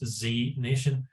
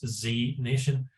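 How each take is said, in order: First: The letter Z is said the American way. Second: The same.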